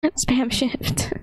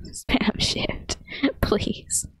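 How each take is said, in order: First: Said in the usual way. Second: Breathy giggling whisper of "Spam shift"; laughing whisper. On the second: Real, not acted. Repeating chat's tip to a stuck friend, giggling whisper.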